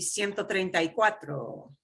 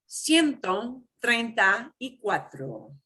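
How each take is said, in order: First: It is said fast. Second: It is said slowly.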